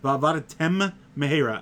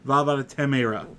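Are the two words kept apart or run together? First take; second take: apart; run together. First: Each word's sound is said separately and clearly. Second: The shared sound is merged, slurring the words. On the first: The speaker calls it right. "you have to enunciate it properly" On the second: The speaker calls it wrong. "and not"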